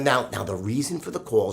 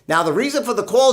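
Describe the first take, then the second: First: There is a pause after now; voice drops. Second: It runs on without pause in a flat voice. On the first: The speaker calls it right. "I want you to pause at now and drop your voice" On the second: The speaker calls it wrong. "they sound pretty monotone"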